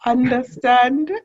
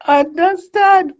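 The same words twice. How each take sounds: First: Said in the usual way. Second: Understand stretched slowly and pitched much higher; emphatic repeat. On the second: Real, not acted. Interviewer stressing agreement with the guest, emphatic rise. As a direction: lift understand high, slow and a bit louder. Interviewer affirming answer twice.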